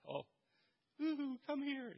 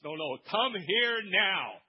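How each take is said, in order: First: High, soft sing-song woo-hoo; mock gentle coaxing; wrong way, soft sing-song; mild beckoning. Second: Slow, louder insistent call; right way, slow insistent order; firm command. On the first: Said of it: "he's yelling, not". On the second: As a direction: demand it right now. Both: Shown as a demonstration.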